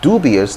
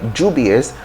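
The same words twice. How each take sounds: First: The word begins with a D sound. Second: The word begins with a J sound. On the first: "In American English, you can say dubious though"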